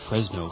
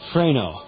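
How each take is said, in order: First: The s sound is pronounced before the n. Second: No s sound is pronounced before the n.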